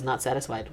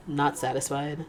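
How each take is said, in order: First: "Not satisfied" stated flat with a falling tune; quoting Fi. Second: "Not satisfied" read with a rising, puzzled tune. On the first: Retold or imitated. Quoting Fi's line, falling and matter-of-fact. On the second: Shown as a demonstration. Reading Fi's words aloud, puzzled rising question. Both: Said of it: "P-Fi goes".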